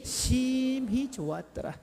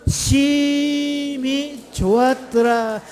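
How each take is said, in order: First: 심히 stretched slowly, raised but soft; soft, lingering stress on 심히; hushed emphatic 심히. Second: 심히 stretched long, high and loud; emphatic 심히. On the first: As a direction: draw out 심히 softly and high. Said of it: "그것도 어떻게 좋았더라". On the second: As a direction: draw out 심히 in a high, slow call. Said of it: "어떻게 좋았다고요". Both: Shown as a demonstration.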